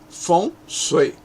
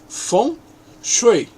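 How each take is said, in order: First: It is pronounced with Cantonese sounds. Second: It is pronounced with Mandarin sounds. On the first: "Em cantonês" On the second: "em mandarim"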